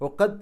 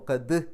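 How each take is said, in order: First: The final consonant is touched lightly, without release. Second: The final consonant is released firmly with an echo. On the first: The speaker calls it wrong. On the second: The speaker calls it right.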